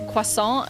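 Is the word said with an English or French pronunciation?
French. It is said with a French pronunciation. The speaker calls it right. "cause it's a French word"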